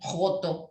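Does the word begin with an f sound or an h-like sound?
h-like sound. The word begins with a raspy h-like sound. "Lo pronuncian como si fuera una, como una J"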